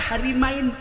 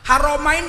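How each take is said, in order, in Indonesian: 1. Vokal setelah 'Har' bunyinya 'i'. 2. Vokal setelah 'Har' bunyinya 'o'. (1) "dibaca Harimain, penjaga dua istri" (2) "Raja Salman tuh Khodim Haromain, penjaga dua kota suci"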